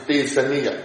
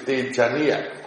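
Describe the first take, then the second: First: The middle consonant is an s sound. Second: The middle consonant is a j sound. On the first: This is the Myanmar Pali pronunciation. "our Myanmar Pali is Tejaniya" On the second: This is the international Pali pronunciation. "international Pali is Tejaniya"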